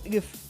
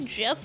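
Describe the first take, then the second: First: The word begins with a hard g sound. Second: The word begins with a j sound. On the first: "It's G. It's GIF. Guh. It's good to G" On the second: "It's actually GIF, like the peanut butter"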